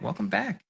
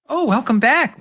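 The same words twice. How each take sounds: First: Welcoming clerk voice, eased back; front desk woman. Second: High, bright greeter voice; welcoming shopkeeper voice, pitched way up; front desk woman. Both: Acted. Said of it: "She looks up, says".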